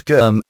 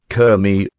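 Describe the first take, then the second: First: Said in the usual way. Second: "Kermy" split into two syllables, KER-my; two-syllable name. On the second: Shown as a demonstration. The clergyman's own way of saying "Kermy", two syllables. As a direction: pronounce "Kermy" as two beats, KER then my. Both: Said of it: "He divides it into two syllables".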